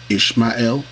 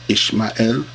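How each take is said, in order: Both takes have the same delivery.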